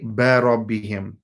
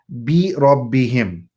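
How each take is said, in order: First: The first vowel sounds like a vague 'a'. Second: The first vowel is a crisp, clear 'i'. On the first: The speaker calls it wrong. "a lot of times people say barabbihim" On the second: The speaker calls it right. "the kasra is pronounced very crisp and clear"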